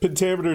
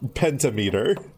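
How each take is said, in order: First: It is said as one normal word. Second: It is said as penta plus meter. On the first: "You don't pronounce either penta or meter as pentameter" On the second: "should clearly be pronounced as pentameter"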